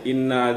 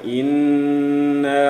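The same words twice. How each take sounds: First: The n sound is short, without a hold. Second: The n sound is nasal and held long. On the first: The speaker calls it wrong. "inna jadi tidak dibaca langsung" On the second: The speaker calls it right. "Inna ketika nunnya itu ditahan dua ketukan"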